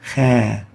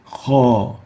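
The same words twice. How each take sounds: First: The syllable is light and thin. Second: The syllable is heavy and emphatic. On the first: The speaker calls it wrong. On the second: The speaker calls it right. "So it is having the hukm of tafkhim. We say for the alif"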